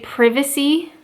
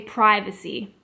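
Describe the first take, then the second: First: It is said in a British way. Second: It is said in a Canadian way. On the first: "in England, people tend to say privacy" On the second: "But in Canada, I would say privacy"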